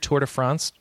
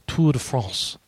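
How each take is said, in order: First: It is said with an English-sounding accent. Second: It is said with a French-sounding accent. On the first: The speaker calls it wrong. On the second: The speaker calls it right.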